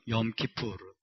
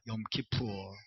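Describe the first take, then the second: First: It is said with a clear final r. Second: It is said American-style, without the final r.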